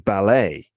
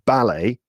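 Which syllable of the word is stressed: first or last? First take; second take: last; first. First: The stress is on the last syllable. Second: The stress is on the first syllable. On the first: "in America, these words would probably be pronounced with the stress on the last syllable" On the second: "in the UK, they are pronounced with the stress on the first syllable"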